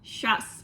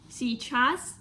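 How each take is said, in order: First: The word is said quickly with sounds dropped. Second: The word is said fully, every sound clear. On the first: "or сейчас" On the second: "like a normal form"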